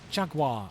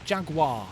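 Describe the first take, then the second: No difference in how they are said.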